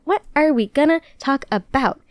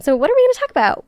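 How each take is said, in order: First: Higher, measured repeat of the question. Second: High, rushed question; quick playful question. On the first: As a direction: stretch each word out, playfully. Same question repeated, drawn out. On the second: Host teasing today's episode to listeners, quick playful question. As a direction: rattle it off high and fast. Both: Real, not acted.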